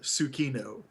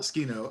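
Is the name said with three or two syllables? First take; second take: three; two. First: The name is said with three full syllables. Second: The first vowel is dropped, giving two syllables. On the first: "clearly pronounces it Tsukino, three syllables" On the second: "not Skino"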